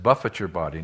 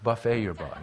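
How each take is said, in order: First: Buffet is stressed first, ending like 'it'. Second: Buffet is stressed last, ending like 'ay'. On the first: The body is struck and disciplined. The speaker calls it right. "Paul said" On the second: The body is fed at an all-you-can-eat meal. The speaker calls it wrong.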